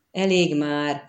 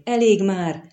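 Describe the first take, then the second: First: Said in the usual way. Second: Raised pleading exclamation; moderately loud echoed cry. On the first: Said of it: "mondta a vámpír". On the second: A narrator's reading. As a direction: call out for it to stop. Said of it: "visszhangozta összekuporodva Kahir".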